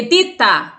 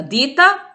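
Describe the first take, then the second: First: "dita" as "ditta", louder with a held T; double T. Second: "Dita" with a short T, higher rising tune; single T. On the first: Teacher giving the word for company, doubled T in "dita". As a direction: punch "dita" with a long stopped T. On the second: Teacher pointing out the difference, single T in "Dita". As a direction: lift "Dita" upward with an undoubled T. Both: Shown as a demonstration. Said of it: "olha a diferença".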